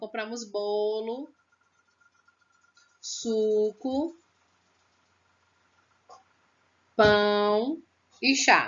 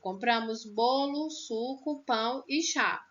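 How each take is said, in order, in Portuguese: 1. Há pausas longas entre os itens listados. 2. Há pausas breves entre os itens listados. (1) "Não é uma parada de trinta minutos, não. ... Não, não é assim" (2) "É uma breve pausa"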